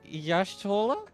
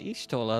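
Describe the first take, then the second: First: The name starts with a 'yash' sound. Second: The name starts with an 'ish' sound. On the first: This is how the character in the game says it. The speaker calls it right. "Did she say Yashtola?" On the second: This is how the speaker had been saying it. The speaker calls it wrong. "I've been pronouncing it Ishtola this whole time"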